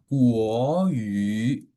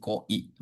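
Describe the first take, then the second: First: It is said as two full syllables. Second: It is squeezed into one short syllable. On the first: This is the original Mandarin form. "ya Kuo Yu" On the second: Lazy Indonesian speakers shorten it. "Orang Indonesia males, jadi Koi"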